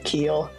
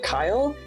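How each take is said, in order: First: The name has the vowel of 'see'. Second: The name has the vowel of 'eye'. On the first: This is how most people say the name. "the way most people will pronounce it" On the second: This is the name's actual pronunciation. "It's actually like Kyle"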